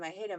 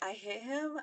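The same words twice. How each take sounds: First: The voice falls at the end like a statement. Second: The voice rises at the end like a question. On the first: She is stating that she hit him. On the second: She is unsure whether she hit him.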